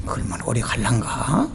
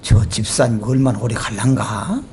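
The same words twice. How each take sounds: First: Low, soft doubtful musing; skeptical aside. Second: Low, doubtful musing; skeptical aside. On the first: Repeating skeptical thought. (낮고 작게 의심하며) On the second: Pastor's skeptical inner thought. (낮게 의심하며 혼잣말) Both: Retold or imitated.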